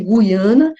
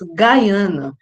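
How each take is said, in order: First: The name is pronounced the Portuguese way, like Ghee-ana. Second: The name is pronounced the English way, like Guy-ana. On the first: "vocês podem falar" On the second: "eu pronuncio em inglês"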